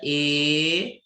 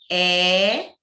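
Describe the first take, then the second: First: The vowel is said with the mouth closed. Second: The vowel is said with the mouth open. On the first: "eu já falo com ela fechada, o som sai mais nasal" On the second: "eu falo com a boca aberta"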